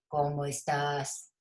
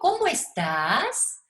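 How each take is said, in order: First: It is said without a questioning intonation. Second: It is said with a questioning intonation. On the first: The speaker calls it wrong. "Yo no digo" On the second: The speaker calls it right. "Yo digo, ... Eso tiene que ver con la entonación"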